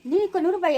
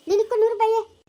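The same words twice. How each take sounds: First: ನಿನಕ್ಕೂ stressed, falling, half-questioning; surprised echo. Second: ನೂರು punched, a bit louder and higher; stress on ನೂರು. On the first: Rival echoing the bet with mild surprise, ನಿನಕ್ಕೂ stressed. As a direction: throw the bet back in disbelief. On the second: Player raising the stakes at the board, ನೂರು hit hard. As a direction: lean hard on ನೂರು as the bet. Betting money in dice game. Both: Acted.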